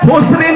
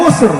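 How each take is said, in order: First: The word ends with a full final syllable. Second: The word stops short without the final syllable. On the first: The reading runs on into the next verse. "Kalau bacanya lafi husrin maka harus disambung illa" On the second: The reading stops at the end of the verse. "kalau dibaca sepotong artinya per ayat-ayat itu berarti innal insana lafi hus"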